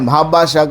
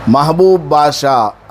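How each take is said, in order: First: The first name is clipped, with no 'oo'. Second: The first name ends with a full long 'oob'. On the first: The speaker calls it wrong. "लोग क्या पुकारते हैं" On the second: The speaker calls it right. "असल में नाम है"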